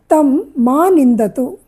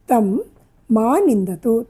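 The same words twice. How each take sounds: First: Slow, deliberate reading of తం మా నిందతు; teacher reading తం మా నిందతు word by word; slow dictation. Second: Said in the usual way. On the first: Shown as a demonstration. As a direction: spell out తం మా నిందతు slowly for the class. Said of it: "teacher dictates Sanskrit sentence". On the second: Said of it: "teacher repeats sentence plainly".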